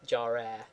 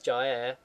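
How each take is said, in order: First: The r is clearly emphasized. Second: The r is barely pronounced. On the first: The speaker calls it wrong. "not jarer" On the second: The speaker calls it right. "it's jaer"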